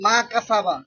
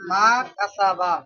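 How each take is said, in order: First: Said in the usual way. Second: Slow, softer, stretched-out syllables; slow dictation. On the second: Shown as a demonstration. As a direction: dictate softly, dragging each syllable. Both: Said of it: "আমি তো আস্তে আস্তে বলতাছি".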